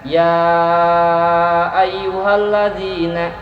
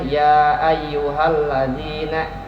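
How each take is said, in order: First: The vowel of ya is stretched long. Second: The vowel of ya is kept short. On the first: The speaker calls it right. "mad jaiz misalkan" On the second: The speaker calls it wrong. "nah dua harokat misalkan. Itu salah"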